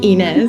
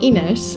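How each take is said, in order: First: The name is said in a non-Portuguese way. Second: The name is said in the Portuguese way. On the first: The speaker calls it wrong. "because I mispronounced your name at the beginning, Ines, I said" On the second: The speaker calls it right. "but it's Ines in Portuguese"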